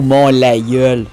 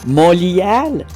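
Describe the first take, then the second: First: The name ends with a 'yeul'-like vowel sound. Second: The name ends with a 'yan'-like vowel sound.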